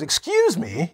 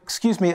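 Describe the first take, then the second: First: It sounds annoyed and offended. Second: It sounds hesitant and apologetic. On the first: The listener should apologize for what they did. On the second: The speaker did not hear and asks politely.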